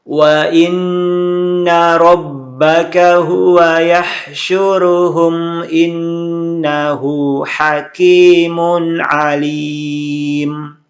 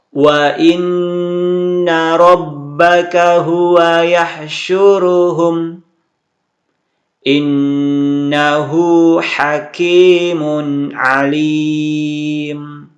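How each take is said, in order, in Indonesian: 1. Pembaca membaca ayat tanpa berhenti. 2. Pembaca berhenti di tengah ayat. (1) "Saya akan coba baca terus satu ayat" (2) "saya akan wakaf di sini"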